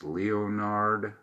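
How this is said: The name is said with an English pronunciation. "if it's English"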